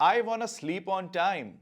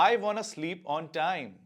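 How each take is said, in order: Both takes have the same delivery.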